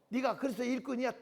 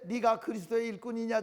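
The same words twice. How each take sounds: First: It is said in a strong Gyeongsang accent. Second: It is said in a neutral standard accent.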